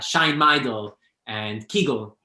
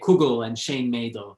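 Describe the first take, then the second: First: It is said in Galicianer, southern Yiddish. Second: It is said in Litvak, Northeastern Yiddish.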